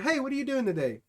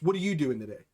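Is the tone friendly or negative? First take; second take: friendly; negative. First: It is said in a friendly, upbeat tone. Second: It is said in a negative, hostile tone.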